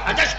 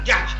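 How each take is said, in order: First: The name begins with an h sound. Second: The name begins with a j sound. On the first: The speaker calls it wrong. "उसको हजश पढ़ देते हैं" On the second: The speaker calls it right. "जीम हा शीन"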